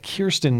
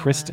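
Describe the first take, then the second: First: The name begins with the sound 'Kir'. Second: The name begins with the sound 'Kris'. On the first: The speaker calls it right. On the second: The speaker calls it wrong. "not Kristen"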